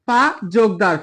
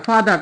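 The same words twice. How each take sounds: First: "ফা যোগ দার" in two separate parts, joined by যোগ; split into syllables. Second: Said in the usual way. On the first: Shown as a demonstration. Teacher breaking ফাদার for students, split into syllables. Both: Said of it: "এই শব্দটাকে যদি ভাঙি".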